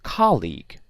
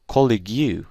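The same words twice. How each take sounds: First: The last syllable has an 'ee' vowel. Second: The last syllable has an 'oo' vowel. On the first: The speaker calls it right. "I say colleague" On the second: The speaker calls it wrong. "I don't say colleague"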